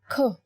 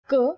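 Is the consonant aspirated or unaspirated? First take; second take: aspirated; unaspirated. First: The consonant is released with a puff of air. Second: The consonant is released without a puff of air. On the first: "when you say kh, you will feel yourself expelling the air" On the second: "when you say k, there is no forceful expulsion of air"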